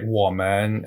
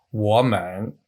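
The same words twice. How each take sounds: First: "woman" said with its correct Mandarin tones, ending low; the right-tone model of "woman", settled. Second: "woman" with its tones swapped, ending on a rise; the wrong-tone "woman", lifting at the end; switched tones. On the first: Shown as a demonstration. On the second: Retold or imitated. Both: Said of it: "I switched the tones around".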